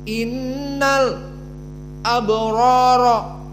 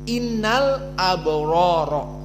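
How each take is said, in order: First: There is a brief silent stop after innal. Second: The words flow on with no stop after innal. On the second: "qiraah jumhur"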